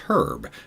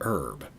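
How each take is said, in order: First: The word begins with an audible h sound. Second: The word begins with no h sound. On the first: It is a person's name. The speaker calls it right. "When it's a person's name, it's Herb" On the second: It is not a person's name. The speaker calls it wrong. "not Herb"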